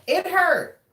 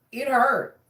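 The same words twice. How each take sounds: First: High, pained stress on hurt; hurt pushed up high; emphatic repeat. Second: Said in the usual way. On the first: Real, not acted. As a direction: lean hard into hurt.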